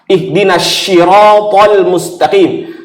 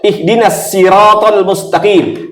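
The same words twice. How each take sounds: First: Sirat starts with an sh sound. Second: Sirat starts with a plain s sound. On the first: Guide us to the straight police. "jadi syah" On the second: Guide us to the straight crab. "atau kembali ke sah"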